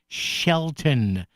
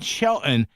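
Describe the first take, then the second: First: The t sound in the middle is clearly pronounced. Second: The t sound in the middle is dropped. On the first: The speaker calls it right. "Pronounce the letters, folks" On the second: The speaker calls it wrong. "not Shelton"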